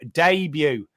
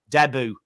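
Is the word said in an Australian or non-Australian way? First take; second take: non-Australian; Australian. First: It is said the speaker's own, non-Australian way. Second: It is said the Australian way.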